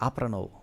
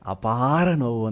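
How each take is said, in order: First: The first syllable has the long vowel. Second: The second syllable has the long vowel. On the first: "ಅವರು ಒಂದು ದೀರ್ಘ change ಮಾಡಿದ್ದಕ್ಕೆ ನನಗೆ ಗೊತ್ತಾಗಲಿಲ್ಲ" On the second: "ಆಮೇಲೆ ಗೊತ್ತಾಯಿತು ನನಗೆ"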